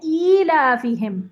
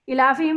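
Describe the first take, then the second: First: The first vowel is drawn out long. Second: The first vowel is short and clipped. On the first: The speaker calls it right. "ये है ईलाफीहिम" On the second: The speaker calls it wrong. "इलाफीहिम नहीं है ये"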